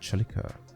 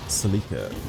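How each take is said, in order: First: The word begins with a ch sound. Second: The word begins with an s sound. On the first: "because a C E makes a ch sound, like a che, pronounce it a Celica" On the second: "In Ireland, people pronounce it as a Celica"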